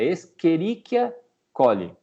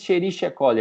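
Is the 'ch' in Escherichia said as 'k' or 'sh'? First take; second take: k; sh. First: The 'ch' is said as a 'k' sound. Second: The 'ch' is said as an 'sh' sound. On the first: The speaker calls it right. "é Escherichia coli" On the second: The speaker calls it wrong. "não existe esse Escherichia coli"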